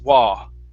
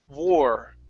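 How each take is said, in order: First: It ends in an open vowel without r. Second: It ends with a slight r sound. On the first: The speaker calls it wrong. "instead it comes out as wah" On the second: The speaker calls it right. "it's war. just barely coming up"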